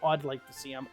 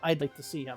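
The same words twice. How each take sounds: First: The first vowel sounds like the vowel in 'odd'. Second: The first vowel sounds like the word 'eye'. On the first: The speaker calls it wrong. "I don't say" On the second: The speaker calls it right. "I say I'd. Like the I is very pronounced"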